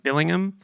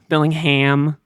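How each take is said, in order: First: The name is said with an English pronunciation. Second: The name is said with an American pronunciation. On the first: "the English way, the correct pronunciation" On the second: "is how Americans say it"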